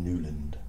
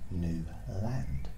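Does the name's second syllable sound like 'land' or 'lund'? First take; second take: lund; land. First: The second syllable has a reduced vowel, like 'lund'. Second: The second syllable has a full vowel, like 'land'. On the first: Other people assume this pronunciation. The speaker calls it wrong. "some people say, "Don't you mean Newland?"" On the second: The name is said the way it is spelled. The speaker calls it right. "I pronounce it how it's spelt"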